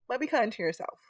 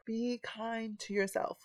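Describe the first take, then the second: First: Said in the usual way. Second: Softer, slower, tender repeat. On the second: Shown as a demonstration. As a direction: say it again gently to yourself. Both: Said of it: "Say it again".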